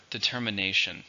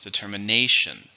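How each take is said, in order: First: Said in the usual way. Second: Determination with NA punched louder; stress on fourth syllable of determination. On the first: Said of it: "And the last word". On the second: Shown as a demonstration. Teacher showing where determination is stressed, NA hit firmly. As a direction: lean hard on NA in determination. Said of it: "with the stress on the fourth".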